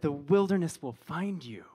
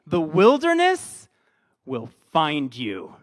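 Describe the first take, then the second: First: Said in the usual way. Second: Slow, heavy, foreboding; ominous intense. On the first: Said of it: "maybe if I said". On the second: Shown as a demonstration. Pastor warns the congregation, ominous and intense. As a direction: loom over them like a threat. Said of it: "I like the intense version".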